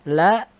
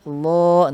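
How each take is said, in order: First: The L is light with a bright vowel. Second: The L is heavy with a darker vowel. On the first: "yang asalnya dibaca la" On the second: "jadi lo lo, ... lam tafkhim, lam yang dibaca tebal"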